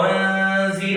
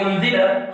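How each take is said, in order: First: أنزل said properly with ذ, tongue between teeth; أنزل with interdental ذ; correct ذ. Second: أنزل said with ز instead of ذ; أنزل mispronounced, no tongue out; wrong Egyptian z. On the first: Teacher showing the right sound to student. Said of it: "أقول". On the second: Teacher mimicking a common student mistake. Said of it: "خطأ". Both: Shown as a demonstration.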